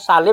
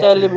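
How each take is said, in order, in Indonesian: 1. Vokal pertama terdengar seperti 'a'. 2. Vokal pertama terdengar seperti 'e'. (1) "kalau bahasa Indonesia Salim" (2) "Tapi kalau orang Turki"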